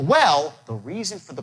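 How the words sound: The word 'well' starts at a high pitch. The speaker calls it right. "you go up on well"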